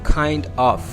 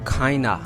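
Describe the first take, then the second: First: Both words are said fully and separately. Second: The two words blend into one reduced word. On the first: "The word is kind of" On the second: "This word in the real pronunciation is kinda"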